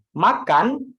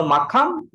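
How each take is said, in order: First: "makan" with a held final n, pitch raised; correct final n. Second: "makam" ending on m instead of n; mistaken final m. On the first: Teacher correcting a foreign friend, clear final n. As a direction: lift "makan" and end it on n. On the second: Teacher showing the friend the error, mistaken final m. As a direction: close "makam" on an m, rising. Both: Shown as a demonstration. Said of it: "no makam".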